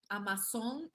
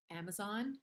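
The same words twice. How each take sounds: First: AMAZON said Spanish-style as "ah-mah-SON"; Spanish-accented "amasón", rising at the end. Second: Said in the usual way. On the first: Shown as a demonstration. Repeats it in Spanish pronunciation.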